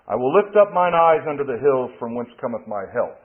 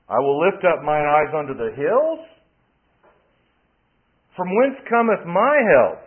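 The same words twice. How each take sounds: First: It is read as one continuous statement. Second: It breaks after hills, asking a question.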